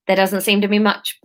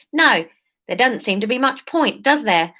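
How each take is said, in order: First: South London attempt slipping into Australian; a faint Australian lilt by mistake; unintended Australian accent. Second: Lightly attempted South London voice; South London accent. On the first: Leader answering the topsider, accent drifting Australian. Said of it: "that's coming out Australian". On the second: Leader answering the topsider, light South London accent. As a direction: retake it in a hint of South London. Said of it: "Surf, surf London, that's it".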